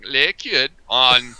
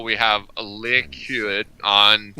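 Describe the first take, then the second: First: Slow, drawn-out Viking voice; Viking accent. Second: Said in the usual way. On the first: Shown as a demonstration. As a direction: stretch it like a Viking. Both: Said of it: "I'm gonna say it like I'm a Viking".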